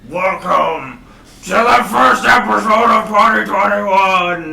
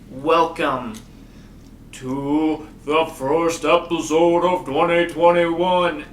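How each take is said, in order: First: It imitates the Monster Energy Supercross announcer. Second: It is said in his normal speaking voice.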